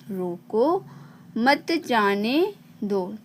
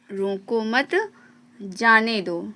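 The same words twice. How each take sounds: First: "रोको", a clear pause, then slow "मत जाने दो"; pause after रोको. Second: "रोको मत" together, a pause, then "जाने दो"; pause after मत. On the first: Teacher shows where the pause falls, pause after "रोको". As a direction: break after "रोको", run "मत जाने दो" together slowly. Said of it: "बोलते समय थोड़ा सा ठहराव लेते हैं". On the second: Teacher shows the second reading, pause after "मत". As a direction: break the sentence after "मत", before "जाने दो". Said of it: "वहीं पे दूसरा नंबर है". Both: Shown as a demonstration.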